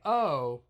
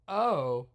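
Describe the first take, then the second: No difference in how they are said.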